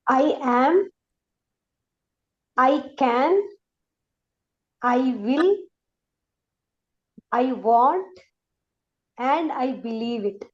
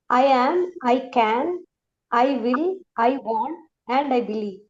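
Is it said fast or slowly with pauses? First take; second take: slowly; fast. First: It is said slowly, pausing after each phrase. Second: It is said fast, without pauses.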